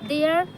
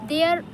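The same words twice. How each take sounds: Both takes have the same delivery.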